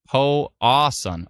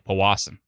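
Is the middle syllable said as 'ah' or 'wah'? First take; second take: ah; wah. First: The middle syllable sounds like 'ah'. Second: The middle syllable sounds like 'wah'. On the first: The speaker calls it wrong. "I keep saying ah" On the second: The speaker calls it right. "but it's wa"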